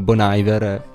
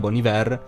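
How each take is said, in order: First: The name is said with English-style sounds. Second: The name is said with French-style sounds. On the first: The speaker calls it wrong. "l'avevo pronunciato come Bon Iver" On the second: The speaker calls it right. "Si diceva Buon Inverno"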